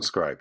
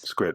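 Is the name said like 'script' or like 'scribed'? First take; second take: scribed; script. First: The name is said as 'scribed', ending in d. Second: The name is said as one syllable, 'script'. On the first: The speaker calls it wrong. "We call it scribed in the U K" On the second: The speaker calls it right. "script, not scribed, script"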